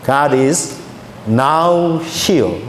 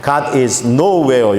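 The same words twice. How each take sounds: First: "now here" 두 단어로 끊어 읽기; "now"와 "here" 사이에 쉼을 두고; now here split. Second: "nowhere" 한 단어로 붙여 느리게 읽기; "nowhere"를 어디에도 없다는 뜻으로 붙여 발음; nowhere as one word. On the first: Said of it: "이렇게 읽었어요". (띄어서 "now here") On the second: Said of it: "영어 N O W H E R E". ("nowhere" 한 단어로 천천히) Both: Shown as a demonstration.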